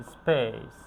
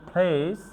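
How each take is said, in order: First: "স্পেস" falling, no puff on the P; unforced P after S. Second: "প্লেস" with a puff on the P, rising; forceful aspirated P. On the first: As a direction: keep the P in "স্পেস" unaspirated. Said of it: "এক্ষেত্রে জোর দেই না". ("স্পেস"-এ "প" জোর ছাড়া) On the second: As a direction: push air into the start of "প্লেস". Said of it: "pressure দিয়ে উচ্চারণ করি". ("প্লেস"-এর "প"-তে শ্বাসের জোর) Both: Shown as a demonstration.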